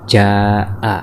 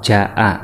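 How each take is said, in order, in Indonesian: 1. Vokalnya dibaca panjang. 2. Vokalnya dibaca pendek. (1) "tetapi kita baca jaa" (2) "Yang tadinya dibaca hanya"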